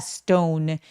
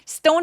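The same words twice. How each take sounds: First: The vowel is drawn out long. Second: The vowel is short. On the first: The speaker calls it right. "모음 소리를 길게 내주시는 게 필요합니다" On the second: The speaker calls it wrong. "stone이 아니라"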